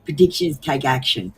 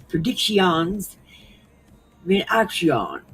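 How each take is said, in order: First: Said in the usual way. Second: Drawn-out mock French, last syllables stretched; slow, exaggerated French pronunciation; French accent. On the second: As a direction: imitate a machine reading it with a French accent. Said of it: "it kept saying it in French".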